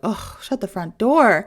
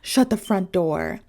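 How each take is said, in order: First: It sounds irritated, with a groan. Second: It sounds surprised, with a gasp.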